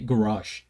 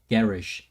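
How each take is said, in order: First: It is said with an American pronunciation. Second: It is said with an Australian pronunciation. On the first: "In America. We say garage" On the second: "he's saying it garage"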